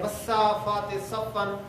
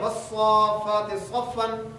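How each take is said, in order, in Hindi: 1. s की ध्वनि plain है, जैसे seen में। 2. s की ध्वनि emphatic है, जैसे saad में। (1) "सीन के साथ पढ़ देते हैं" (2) "स्वाद के साथ लिखा हुआ है"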